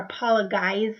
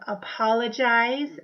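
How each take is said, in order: First: The G is said as a hard G. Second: The G is said as a J sound. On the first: The speaker calls it wrong. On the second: The speaker calls it right.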